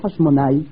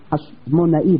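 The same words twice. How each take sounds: First: The ending ai is one gliding syllable. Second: The ending a-i is two separate syllables. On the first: The speaker calls it wrong. "ולא חשמונאי" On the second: The speaker calls it right. "לכן אנחנו אומרים חשמונאי"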